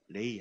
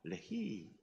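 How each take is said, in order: First: The word is said flatly, without feeling. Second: The word is said with strong feeling. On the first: The speaker calls it wrong. "레히 하지 말고" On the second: The speaker calls it right. "좀 감정을 넣어서 하세요"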